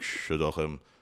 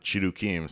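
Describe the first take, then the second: First: The middle consonant is a throaty ch sound. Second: The middle consonant is a hard k sound. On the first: It is the traditional form. "I still like shiduchim" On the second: It is the form the app can say. "I wrote shidukim with a K, so they they pronounce it"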